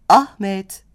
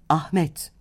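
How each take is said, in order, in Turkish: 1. Vurgu ilk hecededir. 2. Vurgu son hecededir. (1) "Sadece çağırırken adın vurgusu ilk heceye kayar" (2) "Adlarda vurgu son hecededir"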